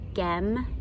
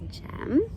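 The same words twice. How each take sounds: First: The word begins with a hard G sound. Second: The word begins with a soft J sound. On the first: The speaker calls it wrong. "I could say it the wrong way" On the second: The speaker calls it right. "the G will say J"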